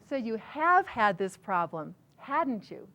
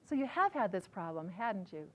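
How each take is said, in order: First: The words are said with strong, deliberate emphasis. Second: The words are said lightly, in a casual tone.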